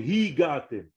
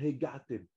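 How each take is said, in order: First: The first vowel sounds like 'i'. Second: The first vowel sounds like 'e'. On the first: The speaker calls it right. "C'est Higatem" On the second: The speaker calls it wrong. "Hegatem, ça ne veut rien dire"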